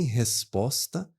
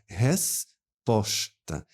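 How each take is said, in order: First: Both s sounds are hissed, like a sharp s. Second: One s is hissed and the other is hushed. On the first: "Eu não falo nem resposta" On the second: "Eu faço um som sibilante e um som de chiado"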